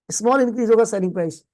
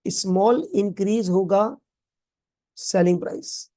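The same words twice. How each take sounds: First: Quick recap. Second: Slow dictation. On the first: Teacher repeats the line quickly. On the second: Teacher dictates the definition slowly. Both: Shown as a demonstration.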